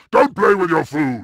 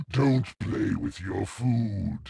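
First: Louder, punching "play" with a falling finish; loud taunt. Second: Softer, low warning with "Don't" leaned on; soft menace. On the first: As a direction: bark it out as a mocking order. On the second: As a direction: murmur it as a quiet threat. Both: Acted.

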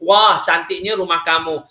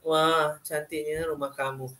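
First: Said in the usual way. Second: "Wah, cantiknya rumah kamu" said flat and much softer, slow, no exclamation lift; deadpan, like a statement ending in a full stop; flat wrong intonation. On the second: Shown as a demonstration. ("Wah, cantiknya rumah kamu" dengan intonasi mendatar dan perlahan, tanpa nada seru) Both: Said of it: "jadi intonasi tak betul".

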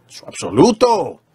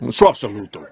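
First: Slow, weight on "absoluto", falling at the end; preacher leans slowly on "absoluto"; stress on absoluto. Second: Lower, pressing hard on "su" then falling away; preacher repeats it, hitting "su" firmly in a lower voice; stress on su. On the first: Preacher defining the absolute, stressing "absoluto". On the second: Preacher insisting it is her own, stressing "su". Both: Shown as a demonstration.

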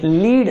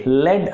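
First: లీడ్ with a long ee; లీడ్ rhyming with need; leader-sense pronunciation. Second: లెడ్ with a short e; లెడ్ rhyming with red; pencil-sense pronunciation. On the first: Teacher shows the guiding meaning, లీడ్ with long ee. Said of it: "అని పలికితే". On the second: Teacher shows the pencil meaning, లెడ్ with short e. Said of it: "ఈ విధంగా pronounce చేసినట్లయితే". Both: Shown as a demonstration.

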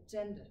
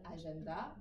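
First: "gender", meant as English agenda, punched on GEN; English pronunciation with GEN stressed, falling after; English word stress. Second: "agenda" in French, syllables evenly weighted; French pronunciation. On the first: Teacher contrasts with French, "gender" as English a-GEN-da, middle stressed. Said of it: "en anglais, on va dire". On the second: Teacher contrasts languages for students, "agenda" in even French syllables. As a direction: say "agenda" the French way, ending on a rise. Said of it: "en français, on va dire". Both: Shown as a demonstration.

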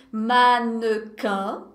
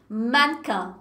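First: "Mannequin" drawn out, middle e fully sounded; exagero silabado. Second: "Mannequin" in two syllables, man-quin; pronúncia natural. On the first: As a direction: stretch "Mannequin" very slowly into man-ne-quin. ("Mannequin" bem lento, com o e do meio pronunciado) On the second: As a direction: drop the middle e of "Mannequin". ("Mannequin" em duas sílabas, sem o e do meio) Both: Shown as a demonstration. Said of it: "Mas ninguém fala assim".

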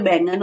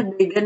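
First: बैंगन said clearly with the nasal n, "baingan"; correct pronunciation. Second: बैगन said as "began" with no nasal, as the wrong form; बैगन read flat without the nasal n, to show the mistake; wrong spelling read out. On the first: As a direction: give बैंगन its full nasal n as the correct form. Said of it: "बैंगन होता है". (सही उच्चारण "बैंगन", अनुनासिक साफ़) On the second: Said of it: "बैगन नहीं होता". (बिना अनुनासिक के गलत उच्चारण "बैगन") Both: Shown as a demonstration.

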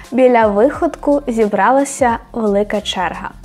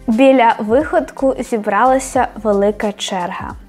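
No difference in how they are said.

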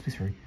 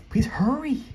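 First: Said in the usual way. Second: High-pitched squealed plea, rising at the end; impatient high squeal; urgent plea. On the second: Real, not acted. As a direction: plead louder and much higher, desperate for haste. Same plea repeated, now urgent.

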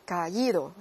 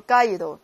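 First: Caído with the í standing out; stress on í in caído. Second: Caído mis-stressed on the a. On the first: Teacher corrects caído with the accent, stress on í. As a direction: split a from í, lean on í. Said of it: "在一上加重音符号". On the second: Teacher shows caído without its accent, stress on a. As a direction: punch the a, let i slide into it. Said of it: "过去分词那个感觉又没有了". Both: Shown as a demonstration.

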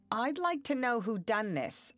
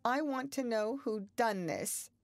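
First: Stern, raised demand, higher and louder. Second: Quavering, raised demand, higher in pitch; wavering voice asking who broke it. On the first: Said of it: "looking sternly". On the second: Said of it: "she quavered". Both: A narrator's reading.

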